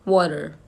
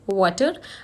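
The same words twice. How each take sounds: First: The middle consonant sounds like a d. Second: The middle consonant is a clear t sound. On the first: "American English में" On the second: "British English में"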